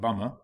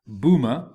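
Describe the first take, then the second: First: It sounds like the English word 'bummer'. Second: It sounds like 'Bhuma', not like 'bummer'. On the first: The speaker calls it wrong. "not Bummer" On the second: The speaker calls it right. "pronounced as Bhuma"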